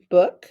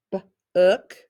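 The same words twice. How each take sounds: First: Said in the usual way. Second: "b-ook" split into "b", a pause, then "ook"; sounded out. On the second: Shown as a demonstration. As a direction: break "b-ook" after its first sound. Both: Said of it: "The word book".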